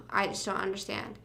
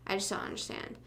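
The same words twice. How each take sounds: First: Said in the usual way. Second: Whispered, much softer, no voice; half-joking whispered repeat. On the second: Shown as a demonstration. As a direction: breathe the words out under your breath.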